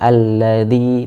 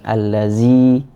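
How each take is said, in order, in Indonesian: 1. Huruf tengahnya bunyi 'th' lembut. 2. Huruf tengahnya bunyi 'z'. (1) "Za alladzi" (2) "bukan allazi"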